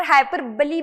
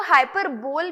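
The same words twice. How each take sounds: First: हाइपरबली said as "hai-per-ba-lee"; हाइपरबली with a final ee sound; pronunciation variant. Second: HYPERBOLE said as "hyper-bol"; हाइपरबोल with a one-syllable "bol" ending; alternative pronunciation. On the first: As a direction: end हाइपरबली on a clear "ba-lee". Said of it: "और हाइपरबली भी बोलते". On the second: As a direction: end हाइपरबोल on "bol", no final ee. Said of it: "हाइपरबोल भी बोलते हैं". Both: Shown as a demonstration.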